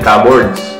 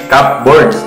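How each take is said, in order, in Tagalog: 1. Isang pinagsamang salita ito. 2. Dalawang magkahiwalay na salita ito, "cup" at "boards". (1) "ang pronunciation nila doon ay cupboards" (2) "Cup as C U P, tas boards. May space"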